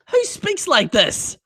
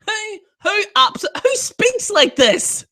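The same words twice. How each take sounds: First: Said in the usual way. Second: Incredulous outburst. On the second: Real, not acted. Incredulous repeat of the question.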